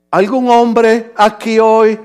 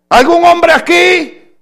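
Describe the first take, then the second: First: Very slow, measured question. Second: Loud, high-pitched call to the congregation. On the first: Shown as a demonstration. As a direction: ask it again word by word, unhurried. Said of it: "más despacio". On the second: Real, not acted. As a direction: shout the question out to the men. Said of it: "Tal vez lo dije muy rápido".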